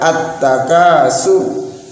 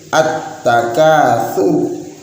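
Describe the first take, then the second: First: The consonant before the end is a sharp s. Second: The consonant before the end is a soft th. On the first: It means crushing or destroying one another. The speaker calls it wrong. "Bukan at-takasur" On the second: It means boasting or competing to accumulate more. The speaker calls it right. "tapi at-takatsur"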